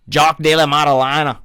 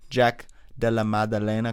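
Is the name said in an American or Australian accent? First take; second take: Australian; American. First: It is said in an Australian accent. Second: It is said in his normal American accent.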